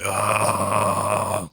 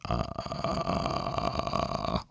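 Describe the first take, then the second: First: A harsh, strained growl forced from the throat. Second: A low, crackling, creaky vocal fry sound. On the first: "You want to distort it as much as you can in your throat" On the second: "vocal fry is more like ah"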